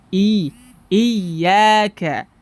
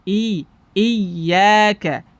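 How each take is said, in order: The two takes are said the same way.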